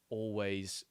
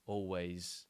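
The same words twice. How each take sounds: The two takes are said the same way.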